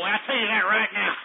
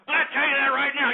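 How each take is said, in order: First: Said through a real chuckle; laughing. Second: Fast and louder, driving it home; emphatic repeat. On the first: Boasting about a Texan president, laughing through it. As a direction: let the laugh spill into the words. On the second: Repeating the boast to listeners, fast and loud. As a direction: hammer the promise home quickly. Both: Real, not acted.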